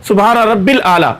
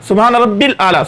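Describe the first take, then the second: First: It is rushed and the middle 'ya' is dropped. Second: It is rushed and the middle 'ya' is dropped.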